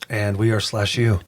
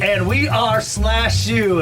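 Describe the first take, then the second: First: It is said in a sad, flat tone. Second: It is said in an upbeat, lively tone.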